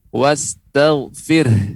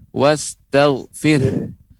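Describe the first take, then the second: No difference in how they are said.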